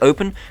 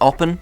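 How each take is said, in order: First: The first syllable has a long 'oh' vowel. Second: The first syllable has a short 'op' vowel. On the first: This is how the speaker habitually says it. "I always say Open" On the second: This is how others say it should be said. "I'm told it's Oppen"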